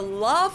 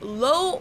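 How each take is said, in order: First: It sounds like the English word love. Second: It sounds like the English word low. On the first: "not Low or Love, like I've heard many Americans say it" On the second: "not Low or Love, like I've heard many Americans say it"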